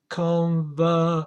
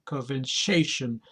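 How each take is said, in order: First: "Conversation" as con-ver-SA-tion; teacher model; stress on third syllable. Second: "conversation" softer, stress on "sa", falling; second model take; stress on third syllable, quiet. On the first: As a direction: hit "sa" in "Conversation". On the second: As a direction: say "conversation" lower with a falling end. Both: Shown as a demonstration. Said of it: "the stress is on the third syllable".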